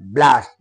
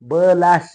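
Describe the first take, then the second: First: The b is joined directly to the l. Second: The b is said separately with a vowel. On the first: The speaker calls it right. "ब अर्ध" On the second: The speaker calls it wrong. "ब last नाही म्हणायचं"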